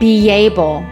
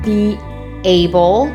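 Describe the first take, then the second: First: A slight y sound links the two words. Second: A glottal stop separates the two words. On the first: "let's link them with a Y" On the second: "I had to separate those words with a glottal stop"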